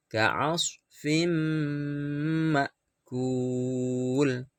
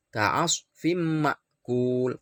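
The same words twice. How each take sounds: First: Ka'asfim ma'kul with the m merged and hummed two beats; idgham bi ghunnah. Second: Ka'asfim ma'kul with the m hum cut short; too little nasal. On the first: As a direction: recite ka'asfim ma'kul with a long nasal hum. (ka'asfim ma'kul berdengung dua ketuk) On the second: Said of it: "kurang dengungnya". (ka'asfim ma'kul, kurang dengung) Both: Shown as a demonstration.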